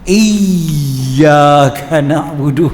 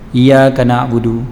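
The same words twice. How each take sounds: First: The y sound is pressed hard and strongly doubled. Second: The y sound is single, with no doubling. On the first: "kena tekan betul-betul" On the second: "iya tak ada sabdu lah kan"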